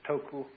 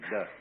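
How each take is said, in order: First: It is said with two syllables, ending in a vowel. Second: It is said as one syllable ending in a vowel. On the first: This is the Japanese reading of the word. "the Japanese pronounce it toku" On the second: This is the northern Mandarin reading of the word. "the northern Mandarins approximately de"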